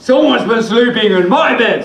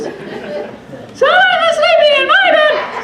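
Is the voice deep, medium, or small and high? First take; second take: deep; small and high. First: It is said in a big, deep voice. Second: It is said in a tiny, high voice.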